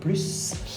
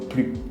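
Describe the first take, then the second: First: The final S sound is pronounced. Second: The final S sound is silent. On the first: "on va prononcer le S, donc plus" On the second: "on ne prononce pas le S comme plus"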